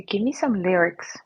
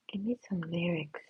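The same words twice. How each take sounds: First: Said in the usual way. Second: Much softer unvoiced whisper of Give me some lyrics. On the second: Shown as a demonstration. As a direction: plead it under the breath.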